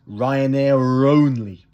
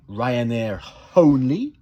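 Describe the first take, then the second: First: The R runs straight into the next vowel. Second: A break or h-like catch separates the words. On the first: The speaker calls it right. "j'accentue le R" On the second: The speaker calls it wrong. "au lieu de dire"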